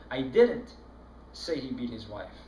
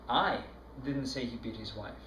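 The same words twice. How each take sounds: First: The word "didn't" carries the strongest stress. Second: The word "I" carries the strongest stress. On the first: The accusation of having said it is denied. "That's very emphatic, as if you had been accusing" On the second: Someone else said it. "No, it wasn't me. It was somebody else that said it"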